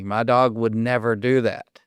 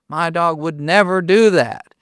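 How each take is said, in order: First: Said in the usual way. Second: A bit louder, insisting the dog would never; insistent retold owner. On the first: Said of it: "they always say to me". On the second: Owner to David, insisting more firmly, louder. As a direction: press the point harder on do. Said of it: "And they're like".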